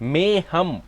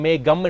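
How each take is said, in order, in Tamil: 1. நடுவில் உள்ள மெய் ஒலி மென்மையான எச் போன்ற ஒலி. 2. நடுவில் உள்ள மெய் ஒலி கடினமான க ஒலி. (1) "இது க இல்ல" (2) "இடையில உச்சரிச்சவர் மேகம் என்று உச்சரிச்சீங்க"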